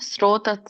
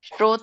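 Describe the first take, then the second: First: The word begins with an s sound. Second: The word begins with a sh sound. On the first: The speaker calls it right. "ಸ್ಟ್ರೋ ಸ" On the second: The speaker calls it wrong. "ಶ ಅಲ್ಲ"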